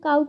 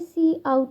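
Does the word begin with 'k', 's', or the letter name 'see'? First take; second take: k; see. First: It is one syllable starting with a 'k' sound. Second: It starts with the letter name 'see', then 'out'. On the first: The speaker calls it wrong. "ये दोनों चीज़ें गलत होंगी" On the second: The speaker calls it right. "हमें इसे pronounce करना होगा सी आउट"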